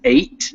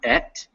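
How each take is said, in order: First: The vowel is a long 'ay' sound. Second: The vowel is a short 'e' sound. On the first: The speaker calls it right. "that word is eight" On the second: The speaker calls it wrong. "not et"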